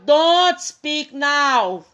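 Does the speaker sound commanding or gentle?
commanding. It is said in a firm, commanding tone. It is an order. "Uma ordem"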